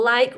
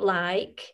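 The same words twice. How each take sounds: First: The vowel is said in a plain standard way. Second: The vowel is drawn out in a Burnley accent.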